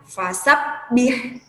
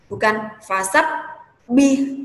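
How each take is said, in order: First: The doubled b is pressed briefly, not held. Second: The doubled b is held with a stop. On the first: The speaker calls it right. "cara bacanya cuma ditekan sekedar mungkin satu alif" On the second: The speaker calls it wrong. "bukan fasabbih, berhenti dulu. Kayak ditahan"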